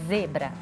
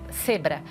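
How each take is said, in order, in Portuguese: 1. O primeiro som é um z sonoro. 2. O primeiro som é um s surdo. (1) "zebra tem um motor ligado na garganta" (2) "o S pelo Z, então em vez de falar zebra, a criança fala ce, cebra"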